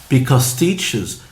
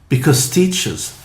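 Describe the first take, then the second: Both takes have the same delivery.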